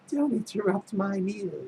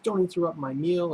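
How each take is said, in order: First: It is said in a crazed, sadistic way. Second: It is said plainly, without much emotion.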